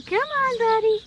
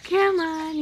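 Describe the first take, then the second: First: Much higher, much louder coaxing; squeaky praising a dog. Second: Louder, brighter coaxing call; squeaky praising a dog. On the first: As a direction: squeal it to a puppy. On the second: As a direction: coax the puppy loudly. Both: Real, not acted. Coaxing the puppy.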